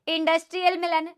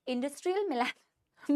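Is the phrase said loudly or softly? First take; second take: loudly; softly. First: It is said in a loud voice. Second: It is said in a soft voice. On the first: "कभी कभी मैं सोचती हूँ तुम्हारी class में मैं कितना चिल्ला रही हूँ" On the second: "थोड़ा आराम से बोलती हूँ बेटा। ... मैं ऐसे बोल नहीं सकती"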